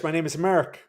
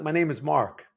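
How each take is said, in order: First: Mock Irish, Mark turned into "Merk"; Irish accent. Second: Said in the usual way. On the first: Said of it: "If you speak Irish". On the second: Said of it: "But no, my name is Mark".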